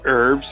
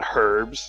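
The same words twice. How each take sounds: First: The word is said in a non-British way. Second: The word is said in a British way. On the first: The speaker calls it right. "it's herbs" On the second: The speaker calls it wrong. "not herbs. What are you, British?"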